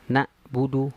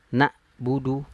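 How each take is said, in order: No difference in how they are said.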